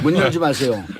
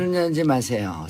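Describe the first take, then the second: First: It is said in the speaker's natural voice. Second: It is said in an imitated, put-on voice.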